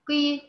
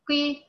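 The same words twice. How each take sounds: First: The first consonant is only moderately emphasized. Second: The first consonant is only moderately emphasized.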